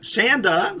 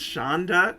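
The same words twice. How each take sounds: First: The first vowel matches the vowel in panda. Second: The first vowel differs from the vowel in panda. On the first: The speaker calls it right. "Shanda like panda" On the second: The speaker calls it wrong. "See, I mispronounce sometimes"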